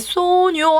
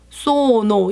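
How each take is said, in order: First: The middle consonant is an ny sound. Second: The middle consonant is a plain n. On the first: The speaker calls it wrong. "깨 소뇨 하시면 안 돼요" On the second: The speaker calls it right. "그냥 소노라고 발음하시고"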